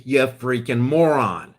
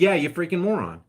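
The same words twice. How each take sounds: First: Mock insult in Franklin quote. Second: Mock insult, repeated. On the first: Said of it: "Benjamin Franklin talked like that". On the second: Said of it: "He literally said".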